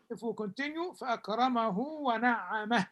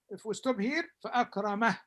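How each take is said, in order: First: فأكرمه said fa'akramahu, running into ونعمه; connected فأكرمه with lengthened vowel; linked form of فأكرمه. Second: فأكرمه ending short, no final vowel; stop form of فأكرمه. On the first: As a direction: carry فأكرمه on with a long u. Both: Shown as a demonstration. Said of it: "only pronounced when we continue".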